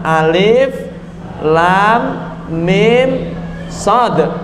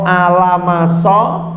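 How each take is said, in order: First: Each letter is said separately by its name. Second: The letters are run together into one word. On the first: The speaker calls it right. "Harus dibaca alif lam mim shad" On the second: The speaker calls it wrong. "tidak boleh ini dibaca al-maso atau alamaso"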